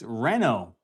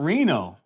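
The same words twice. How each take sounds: First: The first syllable is said like 'ren'. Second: The first syllable is said like 'ree'. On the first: The speaker calls it right. "It's it's Reno. short for renovating or renovation" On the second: The speaker calls it wrong. "it's not Reno"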